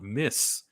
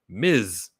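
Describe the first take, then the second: First: The word ends with a hissing s sound. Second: The word ends with a buzzing z sound. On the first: The speaker calls it wrong. "the way to pronounce this word is not Miss" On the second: The speaker calls it right. "This word is Miz Marvel, like the letter Z"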